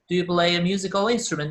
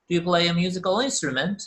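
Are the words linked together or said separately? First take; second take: linked; linked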